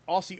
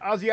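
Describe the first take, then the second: First: The middle consonant is a hissing s. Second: The middle consonant is a buzzing z. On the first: The speaker calls it wrong. "not Aussie" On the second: The speaker calls it right.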